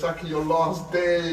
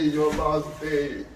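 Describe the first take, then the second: First: Said in the usual way. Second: "your last day" stretched very slowly; slow heavy repeat. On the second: Shown as a demonstration.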